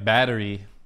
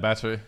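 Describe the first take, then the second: First: It is said in an American accent. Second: It is said in an Australian accent. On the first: "Americans be like" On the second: "it's kind of how we say it in Australia"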